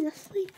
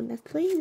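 First: "Nestle" said as NES-lee, ending in "ee"; "Nestle" high and rising on a final "ee"; pronunciation try. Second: "Nestle" said as NES-lay, ending in "ay"; "Nestle" with a rising ay ending; pronunciation try. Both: Shown as a demonstration. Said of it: "from Nestle or Nestle".

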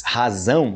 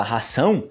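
First: Razão with a buzzing z, hazão; clear z in razão. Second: Ração with a sharp hissed s, hasão; unvoiced s in ração. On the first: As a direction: voice the z in razão strongly. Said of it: "percebe a diferença aí do z". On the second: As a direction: hiss the s in ração, no buzz. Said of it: "esse erro de ração". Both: Shown as a demonstration.

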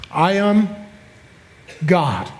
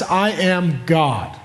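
First: Said in the usual way. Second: "I am God" said slowly, each word weighted, starting on I; slow emphatic claim. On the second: Shown as a demonstration. Repeats the blasphemous claim slowly.

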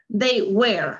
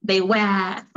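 First: American "They were" with the R sounded; American accent. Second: British "they were", R dropped into a schwa; non-rhotic British "were"; British accent. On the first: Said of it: "Aquí sí se pronuncia la R". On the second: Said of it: "Por ahí no mencionan la R". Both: Shown as a demonstration.

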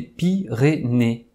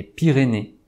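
First: "Pyrénées" split into three separate beats; deliberately segmented "Pyrénées", each syllable on its own. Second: Said in the usual way. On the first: Shown as a demonstration. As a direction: say "Pyrénées" with a short gap after each syllable. Answer revealed syllable by syllable.

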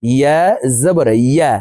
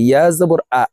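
First: Measured teaching chant, "ইয়া" said from the middle of the tongue; correct ya articulation. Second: Quick "ইয়া জবর আ", final syllable starting on a glottal hamza; mispronounced ya. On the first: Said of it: "আমাদের সঠিকভাবে উচ্চারণ করা শিখতে হবে". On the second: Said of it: "ইয়ার উচ্চারণ হামজার উচ্চারণ করে থাকি". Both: Shown as a demonstration.

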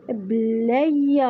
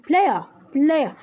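First: بلاير said slowly, each sound clear; careful player. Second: بلاير said quickly, its vowels blended together; fast run-together player. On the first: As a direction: pronounce بلاير carefully, syllable by syllable. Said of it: "ما قلت بلاير". (لفظ دقيق لكلمة بلاير) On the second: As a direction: rush through بلاير as one quick sound. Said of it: "ربط لي لفظتيها على السريع". (بلاير بسرعة ومربوطة) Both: Shown as a demonstration.

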